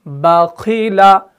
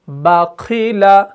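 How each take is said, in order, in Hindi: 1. पहला अक्षर हल्का और बारीक बोला जाता है। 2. पहला अक्षर हल्का और बारीक बोला जाता है।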